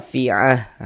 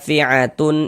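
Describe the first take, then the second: First: The word ends with an h sound. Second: The word ends with a t sound and vowel. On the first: The reading stops at this word. "kalau misalkan kita wakafkan, huruf ha yang yang dibaca" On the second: The reading continues without stopping. "kalau kita wasolkan ... Huruf ta yang dibaca"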